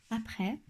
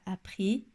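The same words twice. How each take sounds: First: "après" with an open final è, softly; accent grave. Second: "après" mispronounced with a closed final é; accent aigu fautif. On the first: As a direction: say "après" ending on "eh", softer. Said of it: "faire attention à cet accent, euh, grave". (« après » avec un è ouvert, doucement) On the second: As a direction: end "après" on a tight "ay", almost "ee". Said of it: "je rencontre un accent aigu". (« après » prononcé avec un é fermé) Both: Shown as a demonstration.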